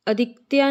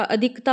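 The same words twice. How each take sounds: First: अधिकत्या ending in "tyaa"; wrong ending demo. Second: अधिकता ending in plain "taa"; correct ending demo. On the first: Teacher shows the mistake, अधिकत्या with a y glide. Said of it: "नहीं होता". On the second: Teacher corrects it, अधिकता ending in plain taa. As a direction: say अधिकता without any y glide. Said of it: "होता है". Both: Shown as a demonstration.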